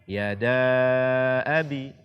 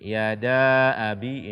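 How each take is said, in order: First: The vowel before abi is held long. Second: The vowel before abi is cut short. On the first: The speaker calls it right. "Minimalnya dibaca empat harakat" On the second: The speaker calls it wrong. "Ini kurang daripada empat harakat"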